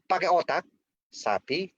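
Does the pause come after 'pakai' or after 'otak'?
after otak. There is a pause right after 'otak'. The listener would take offense. The speaker calls it wrong. "Jangan pakai otak sapi jawabannya"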